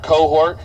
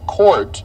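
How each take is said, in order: First: The name is said as two syllables, like cohort. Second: The name is said as one syllable, like court. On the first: The speaker calls it wrong. "I can't tell you how many times that's butchered" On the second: The speaker calls it right. "my last name is pronounced Court, like basketball court"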